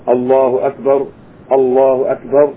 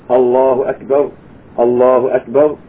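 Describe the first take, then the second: Both takes have the same delivery.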